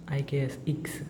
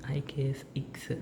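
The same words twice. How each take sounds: The two takes are said the same way.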